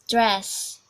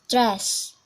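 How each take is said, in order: The two takes are said the same way.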